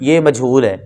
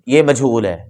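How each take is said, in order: No difference in how they are said.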